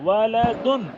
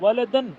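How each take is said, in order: First: The last syllable ends with an 'un' sound. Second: The last syllable ends with an 'an' sound. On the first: The speaker calls it right. "ऐसे साफ पढ़ो वालदुन" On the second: The speaker calls it wrong. "वालदन नहीं होता ना"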